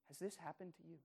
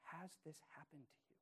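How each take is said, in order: First: Repeated softly but a bit fuller, stress on this; repeated question. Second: Soft, searching question, much softer; hushed question. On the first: Pastor repeats the personal question to listeners, pressing. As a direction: ask it again, pressing gently. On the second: Pastor asks the congregation personally, softly. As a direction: ask it gently, almost to yourself. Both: Real, not acted. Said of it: "I need to ask this question".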